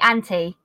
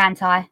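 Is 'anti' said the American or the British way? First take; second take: British; American. First: The word is said the British way. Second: The word is said the American way. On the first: "in Britain, we say anti" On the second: "We don't say anti. That's an American thing"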